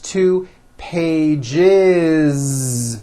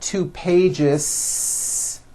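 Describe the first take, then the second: First: Pages ends with a voiced z sound. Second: Pages ends with an unvoiced s sound. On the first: The speaker calls it right. "with a voiced Z" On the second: The speaker calls it wrong.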